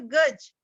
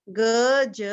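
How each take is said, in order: First: Said in the usual way. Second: गज as a long ग, then a long ज; say-along sounding out. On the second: Shown as a demonstration. Teacher asking children to repeat along, sounded out. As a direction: stretch गज into two letter sounds. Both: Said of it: "मेरे साथ बोलिए".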